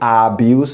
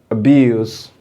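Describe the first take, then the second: First: The first vowel is a full, strong sound. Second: The first vowel is a weak schwa sound. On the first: The speaker calls it wrong. "you don't say abuse" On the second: The speaker calls it right. "No, it's weak"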